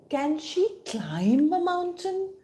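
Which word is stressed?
climb. The stress falls on the word climb. Climbing seems a very difficult thing to do. "can she really climb?"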